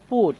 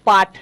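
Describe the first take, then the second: First: The vowel is a rounded 'oo' sound. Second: The vowel is an open 'ah' sound. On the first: The speaker calls it right. "এটা হবে পুট" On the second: The speaker calls it wrong. "এটা কিন্তু পাঠ নয়"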